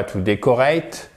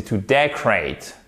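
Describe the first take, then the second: First: "decorate" as day-ko-RATE, rising at the end; French-style mispronunciation. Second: "decorate" as DEK-rate, stressed first, falling; correct English pronunciation. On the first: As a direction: say "decorate" the French way, full O, no first-syllable stress. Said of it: "Donc c'est pas to decorate". (« decorate » prononcé à la française, dé-ko-reït) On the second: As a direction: hit DEK and swallow the O in "decorate". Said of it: "non, c'est to decorate". (« decorate » à l'anglaise, accent sur DEK) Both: Shown as a demonstration.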